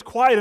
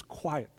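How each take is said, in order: First: Booming order to be silent; loud commanding call. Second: Put-on "Quiet." spoken softly, like calming a child; a soft word to still one heart; soft quiet command. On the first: Acted. God silences the torn-apart world. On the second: God speaks calm over personal life.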